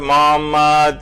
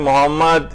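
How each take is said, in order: First: A throaty h and a doubled m. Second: A plain breathy h and no doubled m. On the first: The speaker calls it right. "मोहम्मद यूं पढ़ा जाता है" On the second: The speaker calls it wrong. "आपने मोहम्मद इस तरह से पढ़ा तो आपने अल्फाज भी बदल दिए"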